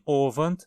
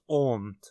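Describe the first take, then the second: First: Both syllables are said in full. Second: It is shortened to a single syllable. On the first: "Alguns falantes dizem Ovant" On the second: "outros Omt"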